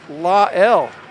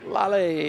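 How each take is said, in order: First: The name ends in an 'El' sound. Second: The name does not end in 'El'. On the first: The speaker calls it wrong. "we got a new pronunciation of Lala's name ... They said La L, ... Kal-El is Superman" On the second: The speaker calls it right. "they got it every time"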